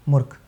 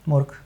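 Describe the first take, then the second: Both takes have the same delivery.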